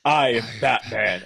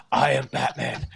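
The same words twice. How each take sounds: First: Slow, deliberate Bale Batman voice; slowed mock Bale Batman growl. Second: A light take on Keaton's Batman line; lightly voiced Keaton Batman, almost conversational; hint of Keaton as Batman; Michael Keaton Batman. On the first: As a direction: drag out each word like Bale's Batman. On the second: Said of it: "are you Michael Keaton?".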